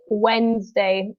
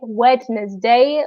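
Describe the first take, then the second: First: The middle D sound is left silent. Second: The middle D sound is clearly pronounced. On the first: The speaker calls it right. "the D in Wednesday is silent. ... we say Wednesday" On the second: The speaker calls it wrong. "we don't say Wednesday"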